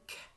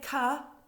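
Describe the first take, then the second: First: The k sound is said alone without a vowel. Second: The k sound is followed by an uh vowel. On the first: The speaker calls it right. "you say k" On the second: The speaker calls it wrong. "you don't say ka"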